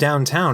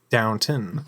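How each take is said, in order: First: The second syllable sounds like 'town'. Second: The second syllable sounds like 'ton'. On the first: The speaker calls it wrong. "it's not even downtown" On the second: The speaker calls it right. "It's downton"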